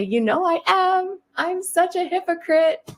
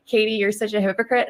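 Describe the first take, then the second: First: High, slower playful confession; high sing-song admission. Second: Lightly voiced accusing critic; mock critic. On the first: Retold or imitated. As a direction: cheerfully own it in a high voice. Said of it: "And I'll say". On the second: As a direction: toss the accusation back plainly. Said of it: "And so you can say".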